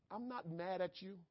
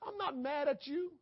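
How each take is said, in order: First: Softer, calm "I'm not mad at you"; soft reassurance. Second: Higher and rising "I'm not mad at you"; urgent pleading. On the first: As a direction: hush it, tender as a comforting parent. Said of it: "God is saying". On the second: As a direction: lift it up in earnest. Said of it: "That's all God is saying". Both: Acted.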